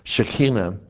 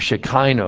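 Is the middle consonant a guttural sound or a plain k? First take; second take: guttural; plain k. First: The middle consonant is a harsh guttural sound. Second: The middle consonant is a plain k sound. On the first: The speaker calls it right. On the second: The speaker calls it wrong.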